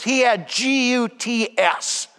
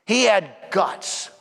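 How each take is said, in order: First: Slow, letter by letter G U T S; spelled out. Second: Said in the usual way. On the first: Shown as a demonstration. Priest spelling a word to his people, slow. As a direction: spell it out for the congregation, slowly. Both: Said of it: "Simpler word is this".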